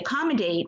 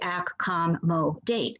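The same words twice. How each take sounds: First: The second syllable has a reduced uh vowel. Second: The second syllable has a full o vowel. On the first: The speaker calls it right. "when we say it fast, because we swish all our sounds together" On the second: The speaker calls it wrong. "we don't say accommodate"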